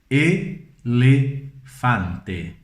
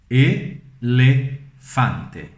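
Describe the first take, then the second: First: It has full, clear Spanish-style vowels. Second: It has full, clear Spanish-style vowels.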